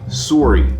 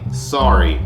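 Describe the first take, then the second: First: It has a Canadian-style vowel. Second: It has an American unrounded vowel. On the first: "Canadian would say it more like sorry" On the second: "an unrounded vowel in a word like"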